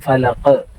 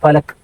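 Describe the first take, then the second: First: The final consonant ends with an echoing bounce. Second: The final consonant is clipped without any bounce. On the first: The speaker calls it right. "ഖ് എന്ന് പറയണം" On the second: The speaker calls it wrong. "അങ്ങനെ പറഞ്ഞാൽ പോലെ അത് ശരിയാവില്ല"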